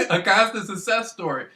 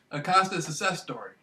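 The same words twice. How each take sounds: First: Said through a real laugh. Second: Said in the usual way. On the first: Real, not acted. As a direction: chuckle the words out.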